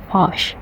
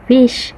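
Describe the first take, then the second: First: New Zealand "fish" like "fosh"; New Zealand "fush" for "fish"; New Zealand accent. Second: Australian "fish" with a clear short i; Australian accent. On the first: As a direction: say "fish" the New Zealand way, vowel opened toward "uh". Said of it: "But from the New Zealand". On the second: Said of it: "For the Australian". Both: Shown as a demonstration.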